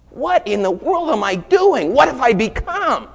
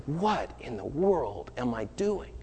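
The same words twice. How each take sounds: First: Much higher and louder, slow and pleading; anguished cry. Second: Slow, soft, dazed self-question; stunned quiet. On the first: Friend horrified at herself, crying out loud and high. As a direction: cry it out in horror at yourself. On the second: Friend realizing what she did, quiet and slow. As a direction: say it to yourself as it sinks in. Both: Retold or imitated.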